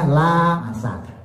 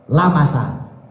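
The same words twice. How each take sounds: First: The first vowel is said long. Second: The first vowel is said short. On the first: "Kalau kita kan bacanya lamasa" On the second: "lamasanya dibaca pendek"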